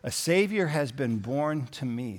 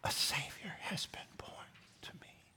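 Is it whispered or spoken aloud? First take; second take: aloud; whispered. First: It is spoken in a full voice. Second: It is whispered.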